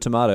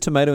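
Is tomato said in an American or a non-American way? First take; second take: non-American; American. First: Tomato is said with a non-American pronunciation. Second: Tomato is said with an American pronunciation. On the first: "instead of tomato" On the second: "She says tomato"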